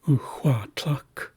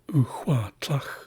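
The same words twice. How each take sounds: First: The last word ends in a hard k stop. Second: The last word ends in a rough ch sound. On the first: The speaker calls it right. "This is a K. This is a hard sound at the stop" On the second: The speaker calls it wrong. "That's the Heisler pronunciation coming out"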